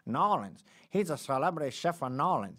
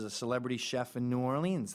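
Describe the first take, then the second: First: Louder, higher hammed-up Cajun accent. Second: Said in the usual way. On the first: Podcast host mimicking locals talking about a chef, in a mock Cajun accent. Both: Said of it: "how to do a Cajun accent".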